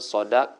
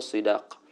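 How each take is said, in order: First: The first vowel is an 'a' sound. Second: The first vowel is an 'i' sound. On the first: The speaker calls it right. "Dengan fathahkan sad lebih afsah" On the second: The speaker calls it wrong. "daripada kasrahnya"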